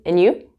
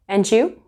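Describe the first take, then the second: First: The first word is reduced to just an N sound. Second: The D links into 'you', sounding like 'jew'. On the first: "I said in you. So it's kind of like N"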